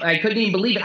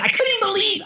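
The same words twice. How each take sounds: First: Said in the usual way. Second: Squeaky disbelief. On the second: Real, not acted. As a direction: pitch jumps way up on couldn't. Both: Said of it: "I can't even believe I'm telling you this".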